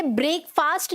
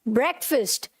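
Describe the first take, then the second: First: ब्रेकफास्ट said "brake-faast"; long vowels in both halves of ब्रेकफास्ट; wrong pronunciation. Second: ब्रेकफास्ट said "BREK-fust"; short vowels in both halves of ब्रेकफास्ट; correct pronunciation. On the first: Teacher showing students the error, ब्रेकफास्ट mispronounced as "brake-faast". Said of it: "आपको इसे ब्रेकफास्ट नहीं बोलना". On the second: Teacher modelling for students, ब्रेकफास्ट as "BREK-fust". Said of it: "क्या बोलना है?". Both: Shown as a demonstration.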